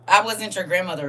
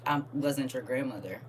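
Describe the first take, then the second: First: Emphatic retort. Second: Said in the usual way. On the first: Real, not acted. Grandmother setting a commenter straight, emphatic retort. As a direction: throw it back at them, louder.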